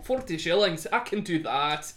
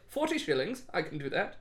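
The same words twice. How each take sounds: First: It is said in a put-on Scottish accent. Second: It is said in the speaker's plain accent. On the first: The speaker calls it right. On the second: The speaker calls it wrong.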